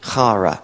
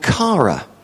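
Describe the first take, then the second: First: The word begins with a breathy h sound. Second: The word begins with a hard k sound. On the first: The speaker calls it right. "she insisted that her name was pronounced Hara" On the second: The speaker calls it wrong. "I would have said a week ago, a Greek word called chara"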